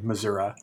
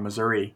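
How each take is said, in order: First: The word has a regional, local pronunciation. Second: The word has a standard, general pronunciation.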